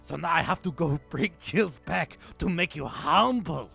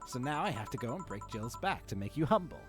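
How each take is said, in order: First: It is read in a put-on character accent. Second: It is read in the reader's normal accent. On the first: The speaker calls it right. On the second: The speaker calls it wrong.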